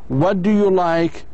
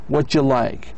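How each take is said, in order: First: Every word is pronounced fully and separately. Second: The middle words are reduced and run together. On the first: The speaker calls it wrong. "instead of say" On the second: The speaker calls it right. "You should say"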